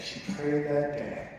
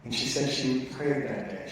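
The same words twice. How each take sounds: First: Slow, with prayed leaned on hard; prayed stretched and weighted; stress on prayed. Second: Said in the usual way. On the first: Shown as a demonstration. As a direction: drag it out, pressing on prayed. Repeats line for emphasis.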